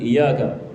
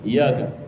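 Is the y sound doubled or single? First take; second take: single; single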